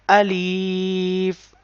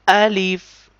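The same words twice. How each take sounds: First: The word is stretched out long. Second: The word is said short and quick. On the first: The speaker calls it wrong. "we cannot stretch this letter like Alif. So this sound is wrong sound" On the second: The speaker calls it right. "you have to read this like Alif, Alif quickly"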